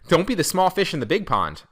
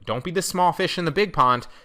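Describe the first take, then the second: First: The sentence is said with strong emphasis. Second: The sentence is said with little emphasis. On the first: The speaker calls it right. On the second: The speaker calls it wrong.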